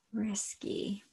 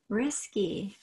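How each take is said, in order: First: Risky breathed as a soft whisper; risky spoken under the breath. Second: Said in the usual way. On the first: Shown as a demonstration. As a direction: drop the word risky to a whisper. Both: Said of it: "and risky".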